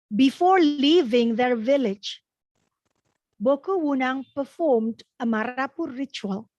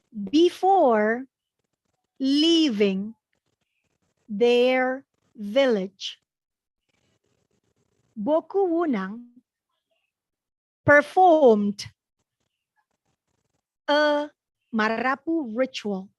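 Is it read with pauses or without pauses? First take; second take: without pauses; with pauses. First: It is read in one go without pauses. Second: It is read in chunks with pauses.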